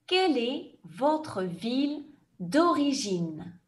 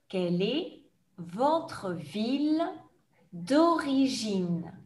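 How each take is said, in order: First: The question is said at a fast pace. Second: The question is said at a slow pace. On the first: "je vais poser la question rapidement comme dans un examen" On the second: "je vais reposer la question plus lentement"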